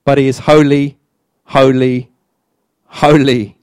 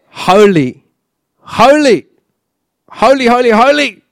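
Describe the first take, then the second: First: Each "holy" set apart by a pause; measured repetition. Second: Each "holy" climbing much higher; escalating repetition. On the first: Preacher stressing God's holiness, measured repetition. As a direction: state "holy" evenly, spacing out each one. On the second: Preacher showing holiness goes on and on, escalating repetition. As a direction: build "holy" to high, rapid, exclaimed repeats. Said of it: "It could just go on". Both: Shown as a demonstration.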